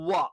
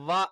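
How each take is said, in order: First: It is said with rounded lips, like w. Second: It is said with teeth on lip, like v. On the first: The speaker calls it right. "ചുണ്ട് വൃത്താകൃതിയിൽ ചേർത്ത് വെച്ചുകൊണ്ടാണ് വ എന്നാണ് നമ്മൾ ഉച്ചരിക്കേണ്ടത്" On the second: The speaker calls it wrong. "മേലെ പല്ല് താഴെ ചുണ്ടിൽ ടച്ച് ചെയ്തുകൊണ്ട് വ ... അത് തെറ്റാണ്"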